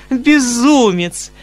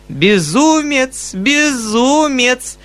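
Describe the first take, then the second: First: High, slow, coquettish teasing; charmingly playful. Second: High, very slow coquettish teasing; playful repeat. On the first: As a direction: tease him like a flirt, drawing it out. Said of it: "с самой очаровательной игривостью". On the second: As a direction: sing it out to tease him. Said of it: "повторяла Татьяна Ивановна и вдруг захохотала". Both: Acted.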